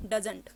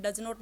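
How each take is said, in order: First: "doesn't" run together as one syllable; contracted doesn't. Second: "does not" said as two full words; split does not. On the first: Teacher models the right contraction, clipped. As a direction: say "doesn't" in one quick joined word. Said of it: "इकट्ठे pronounce होते हैं". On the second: Teacher shows the wrong uncontracted form, plain. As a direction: say "does not" slowly, both words separate. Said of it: "इसको भी आप does not नहीं बोलोगे". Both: Shown as a demonstration.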